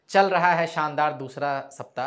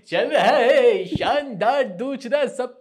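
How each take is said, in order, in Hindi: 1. यह सामान्य बोलचाल की आवाज़ में बोली गई है। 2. यह दिखावटी घोषणा वाली आवाज़ में बोली गई है। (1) "नॉर्मल भी बोल सकते हैं" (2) "हमेशा ऐसे ही"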